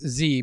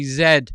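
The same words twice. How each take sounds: First: The letter is said the American way, as zee. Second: The letter is said the European way, as zed.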